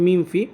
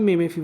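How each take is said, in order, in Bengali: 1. প্রথম অংশটি এক শব্দাংশে উচ্চারিত হয়: meem। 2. প্রথম অংশটি দুই শব্দাংশে উচ্চারিত হয়: meh-meh। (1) "আসলে উচ্চারণ হবে মিম ফি" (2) "বা মেমে ফি বলে"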